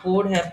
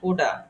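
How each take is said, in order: First: Both words are said fully and separately. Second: The words are blended into one short reduced word.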